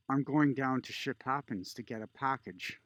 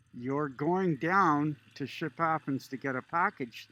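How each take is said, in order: First: Said in the usual way. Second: Mock disbelief, louder, stressing down; incredulous repeat. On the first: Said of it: "She goes". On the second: Older border guard mocking the traveler's answer, incredulous. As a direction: echo her words back as if they're absurd. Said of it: "the lady re-, responds, the guard".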